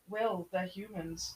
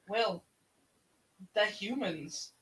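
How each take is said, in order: First: It is said flatly, with no emotion. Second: It is said with dawning emotional realization.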